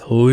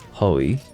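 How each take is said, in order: First: The vowel is said with rounded, protruding lips. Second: The vowel is said without rounded, protruding lips. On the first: The speaker calls it right. "Unless you're sticking your lips out, you're not doing it right" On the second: The speaker calls it wrong. "it's not Hoi"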